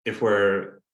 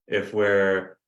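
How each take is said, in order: Both takes have the same delivery.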